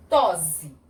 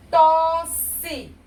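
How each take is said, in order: First: "tose" with a voiced z; som de um S. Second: "Tosse" high, loud, in two syllables; som de S. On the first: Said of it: "Se eu botar só um S". ("tose" com som de Z) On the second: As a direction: stretch "Tosse" as tos-se, hissed. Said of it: "o sonzinho do cedilha". ("Tosse" silabado, com som de S) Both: Shown as a demonstration.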